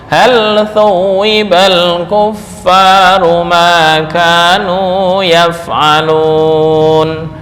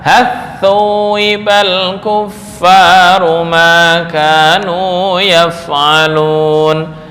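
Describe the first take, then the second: First: The l sound is pronounced clearly before th. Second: The l merges into the following th sound.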